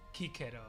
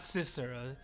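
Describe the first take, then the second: First: The name begins with a hard K sound. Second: The name begins with a soft S sound. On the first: This is the classical Latin pronunciation. The speaker calls it right. "hard C's, k" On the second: This is the later church Latin pronunciation. The speaker calls it wrong. "not Cicero"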